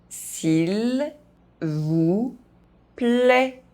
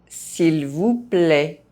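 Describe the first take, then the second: First: The phrase is spoken very slowly. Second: The phrase is spoken at normal pace. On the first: "very slowly" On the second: "at a normal pace"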